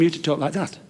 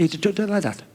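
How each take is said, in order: First: Said in the usual way. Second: "talk" said with front-of-tongue t for k; slight speech defect. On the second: Shown as a demonstration. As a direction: say "talk like that" as "tot like dat". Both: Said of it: "a slight speech defect".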